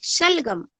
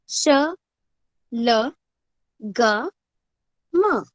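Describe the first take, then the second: First: शलगम said fast as one word; teacher shows the quick blended word; said quickly. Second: श, ल, ग, म spelled out one letter at a time; teacher spells out the letters. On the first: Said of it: "ऐसे जल्दी से करेंगे". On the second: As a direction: sound out श ल ग म slowly with pauses. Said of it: "इसका उच्चारण करते वक्त हम". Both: Shown as a demonstration.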